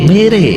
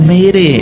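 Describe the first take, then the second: No difference in how they are said.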